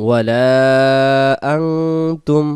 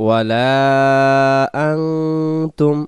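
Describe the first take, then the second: The two takes are said the same way.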